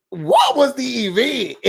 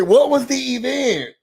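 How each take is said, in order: First: High, slow incredulous question; baffled outcry. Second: High, exasperated question; baffled repeat. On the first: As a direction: ask it like it makes no sense. Baffled reaction to Bria's event. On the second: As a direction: demand an answer, high-pitched. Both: Real, not acted.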